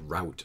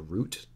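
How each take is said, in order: First: The vowel sounds like the one in 'out'. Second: The vowel sounds like the one in 'boot'. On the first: It is kept apart from the root of a drive. The speaker calls it right. "a route would be a better way to pronounce it" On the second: It could be confused with the root of a drive. The speaker calls it wrong. "so that you don't confuse that word with like the root of a drive"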